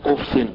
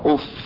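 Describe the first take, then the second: First: The word ends with an added n sound. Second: The word ends without an added n sound. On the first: "ودي قراءة نافع وقراءة ابي جعفر وقراءة حفص عن عاصم احنا بنقراها" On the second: "بعدم التنوين"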